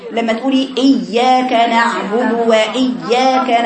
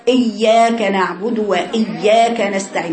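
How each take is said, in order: First: إياك said slowly with the voice cut on the yaa; slow demo of the sound stopped inside إياك; demonstrating the mistaken cut in إياك. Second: إياك read with the yaa cut short and clipped; slow demo of the mistaken إياك; mock student error in إياك; wrong reading. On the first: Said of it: "قطعت الصوت". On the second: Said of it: "بعضكم بيقرأوا كده". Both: Shown as a demonstration.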